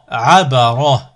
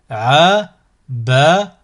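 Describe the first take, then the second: First: Syllables joined as one word. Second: Slow, each syllable drawn out separately; split into syllables. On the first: Teacher models a word for learners to repeat, joined in one go. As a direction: run the syllables together without pauses. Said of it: "ensuite le mot". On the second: Teacher models a word for learners to repeat, split into syllables. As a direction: cut the word up, pausing between syllables. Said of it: "décomposer le mot". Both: Shown as a demonstration.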